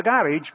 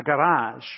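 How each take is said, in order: First: "garage" said the way he always said it as an adult; his old pronunciation. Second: Put-on "garage" said the way the six-year-old taught him; corrected pronunciation. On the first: Retold or imitated. Pastor recalls his lifelong way of saying it, "garage" said his usual way. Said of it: "now I understand it's a garage". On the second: Pastor adopts the girl's correction, "garage" said her Southern way. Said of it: "it was called a garage".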